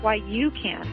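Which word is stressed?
you. The stress is on "you".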